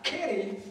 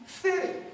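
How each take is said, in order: First: The word begins with a K sound. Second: The word begins with an S sound. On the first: The speaker calls it wrong. "not kitty" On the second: The speaker calls it right. "it's city"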